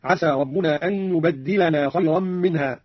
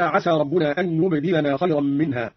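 First: يبدلنا with a doubled dal, yubaddilana. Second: Said in the usual way. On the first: Shown as a demonstration. Teacher demonstrates the doubled dal slowly. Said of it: "هكذا". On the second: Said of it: "قرأ قالون بتشديد الدال".

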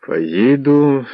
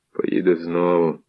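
First: Higher, tense vow through clenched teeth; through gritted teeth. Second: Said in the usual way. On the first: A narrator's reading. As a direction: grind it out angrily. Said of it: "заскриготав він зубами".

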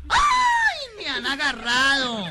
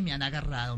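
First: High, loud, drawn-out comic wail; hammed-up cry. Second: Said in the usual way. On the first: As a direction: wail it out theatrically, stretching the words. Revive el grito del susto. (grito exagerado y alargado)

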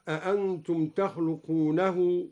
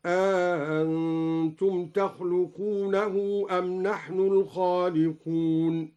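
First: Said in the usual way. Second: أأنتم with the second hamza softened and an alif inserted, slow; recited with tasheel. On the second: Shown as a demonstration. (تسهيل الهمزة مع الإدخال في أأنتم) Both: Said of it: "بتسهيل الهمزة مع الإدخال".

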